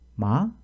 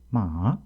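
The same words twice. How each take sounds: First: The pitch rises quickly at the end. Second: The pitch dips from mid, then rises slightly. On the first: "이렇게 뒤를 빠르게 올리는 소리입니다" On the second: "중간음에서 낮추는 높이는 것으로서"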